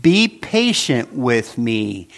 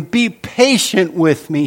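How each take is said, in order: First: "Be patient with me" read slowly, each word set apart for the listeners to notice; slow deliberate reading. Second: A touch of pleading in the servant's voice; mild begging. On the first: Shown as a demonstration. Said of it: "I want you to notice the exact words". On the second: Retold or imitated. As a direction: plead lightly, as the servant on his knees. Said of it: "he begged".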